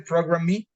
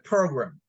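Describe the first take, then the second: First: The stress is on the second syllable. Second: The stress is on the first syllable. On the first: The speaker calls it wrong. "we don't say program me" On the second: The speaker calls it right. "the one that has the strong sound is per"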